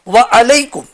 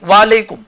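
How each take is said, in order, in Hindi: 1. शब्द अलग रहते हैं, 'wa alaikum' के रूप में। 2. शब्द मिलकर 'walekum' बन जाते हैं। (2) "लोग ऐन को भी साकिन कर देते, वालेकुम नहीं"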